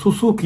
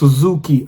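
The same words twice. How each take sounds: First: The middle consonant is a voiceless s sound. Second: The middle consonant is a voiced z sound. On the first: The speaker calls it wrong. "சுசுகி அப்படின்றான்" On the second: The speaker calls it right. "அந்த வாயில சுசுகி அது சு ஜு ஜட் ஜி sound வரணும்"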